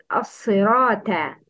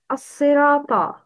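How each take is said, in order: First: "as-sirata" with a thin plain t; light ta. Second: "As-sirata" with a dark, emphatic final ta; heavy ta. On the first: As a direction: mispronounce "as-sirata", ending on a light front "ta". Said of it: "The wrong is". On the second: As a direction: say "As-sirata" with a heavy, back-of-mouth "ta". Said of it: "pronounce ta with a heavy tone". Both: Shown as a demonstration.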